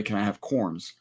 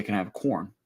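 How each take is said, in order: First: "corns" with a final s, lower and softer; wrong plural. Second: "corn" with no final s, lower and softer; correct singular. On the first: Arguing over the plural, mistaken "corns". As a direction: tack a z sound onto "corns". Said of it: "you don't say". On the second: Showing partner the proper form, singular "corn". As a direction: close "corn" on the n. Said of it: "You say". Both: Shown as a demonstration.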